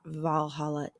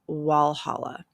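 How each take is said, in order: First: The name begins with a V sound. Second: The name begins with a W sound. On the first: The speaker calls it wrong. "It is not Valhalla" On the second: The speaker calls it right. "it is Walhalla"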